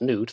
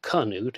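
First: The name is said with one syllable. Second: The name is said with two syllables. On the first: The speaker calls it right. "it's Newt. That's how he was known to people" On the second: The speaker calls it wrong. "it's not Canute"

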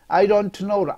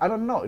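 First: It is said slowly, each word separate. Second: It is said fast, words linked together.

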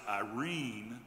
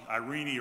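First: The name is said the usual English way. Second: The name is said the original Greek way. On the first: "or as we pronounce it" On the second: "In Greek mythology"

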